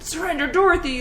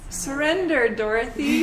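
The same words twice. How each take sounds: First: It is said in a menacing, aggressive tone. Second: It is said in a soft, gentle tone.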